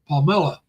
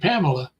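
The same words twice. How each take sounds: First: The name is said with local Filipino pronunciation. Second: The name is said with American pronunciation. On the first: "they go she goes pa- Pamela" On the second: "we would say Pamela"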